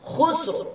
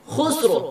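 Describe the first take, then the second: No difference in how they are said.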